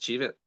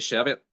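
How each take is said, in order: First: It is said the way across the water. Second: It is said the Northern Irish way.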